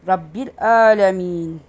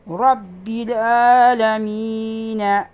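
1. Son kelime bir ünsüzle biter. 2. Son kelime eklenen bir ünlüyle biter. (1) "Ama en son sayfanın sonunda olduğu zaman" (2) "ama aralarda olduğu zaman da Rabbil alemine"

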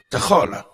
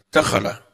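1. Tekanannya di suku kata kedua, agak dipanjangkan. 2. Tekanannya di suku kata pertama. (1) "Kalau kau nekan huruf kedua, jadinya agak tawalut, ada muncul mat sedikit" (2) "Huruf pertama langsung ente tekan"

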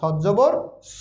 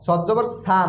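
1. শেষের স্বরটি ছোট করে হ্রস্ব পড়া হয়। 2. শেষের স্বরটি টেনে দীর্ঘ করে পড়া হয়। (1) "তাড়াতাড়ি পড়তে হয়" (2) "না"

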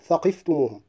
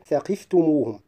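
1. يُنطق الحرف الأول مفخمًا. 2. يُنطق الحرف الأول مرققًا. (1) "لا أقول ثقفتموهم" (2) "أحرص على ترقيق الساء"

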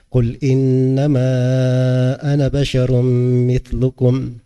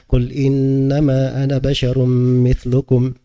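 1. Vokal di 'ana' dipanjangkan empat harakat. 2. Vokal di 'ana' hanya dibaca dua harakat. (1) "Dibacaannya dipanjangkan empat harakat" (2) "Dia cuma dua harakat saja"

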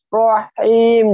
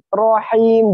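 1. Diseret dan dipanjangkan. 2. Dibaca pendek dan lembut. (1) "jangan rahim, jangan gitu ya. Jangan diisbakkan atau diseret ya" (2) "Tapi nirrahim, rahim"

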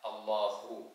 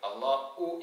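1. നടുവിലെ ശബ്ദം ശ്വാസം കലർന്ന ഹ ആണ്. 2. നടുവിലെ ശബ്ദം ഗ്ലോട്ടൽ സ്റ്റോപ്പ് ആണ്. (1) "ഹാക്ക് തന്നെ വേണം" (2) "ഹംസയായി ഉച്ചരിച്ച് ... അള്ളാഹു എന്നല്ല"

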